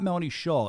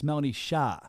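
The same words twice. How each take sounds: First: SHAW with a rounded "aw" vowel; American mispronunciation. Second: SHAH with an open "ah" vowel; corrected pronunciation. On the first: Host showing how not to say guest's name, wrong SHAW. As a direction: say "Shaw" to rhyme with "law". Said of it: "It's not Melanie Shaw". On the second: Host correcting how guest's name is said, open SHAH. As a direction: say "Shah" with the "ah" of "spa". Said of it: "It's not Melanie Shaw. It's". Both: Shown as a demonstration.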